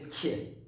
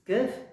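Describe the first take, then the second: First: "kie" with a y-glide after the k; palatalized K. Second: Said in the usual way. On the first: Shown as a demonstration. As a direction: soften "kie" into k plus y. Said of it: "comme un Y". (« kie » palatalisé, avec un petit Y) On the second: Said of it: "si on le palettise".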